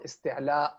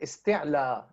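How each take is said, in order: First: The word ends with a glottal stop after the vowel. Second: The word ends on a long vowel, no glottal stop.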